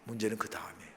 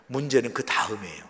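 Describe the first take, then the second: First: Much softer, low and grave; hushed repeat. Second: Said in the usual way. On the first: Real, not acted. Preacher repeats the warning to the congregation, hushed. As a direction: let the warning drop almost to nothing.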